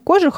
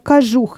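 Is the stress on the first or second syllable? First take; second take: first; second. First: The stress is on the first syllable. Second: The stress is on the second syllable. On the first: The speaker calls it wrong. "не кожух" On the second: The speaker calls it right. "а кожух именно здесь. Вот такое ударение"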